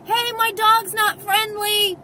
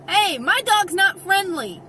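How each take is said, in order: First: Higher, louder shouted warning; re-enacted yell. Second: Raised, higher-pitched warning call. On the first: Dog owner yelling to a distracted stranger, re-enacted yell. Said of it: "and then I gotta yell". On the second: Retold or imitated. Dog owner warning approaching people, called out. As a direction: call out a warning over some distance. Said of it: "how many times I have said to people".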